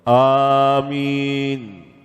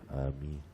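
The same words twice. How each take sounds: First: It is said loudly. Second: It is said quietly.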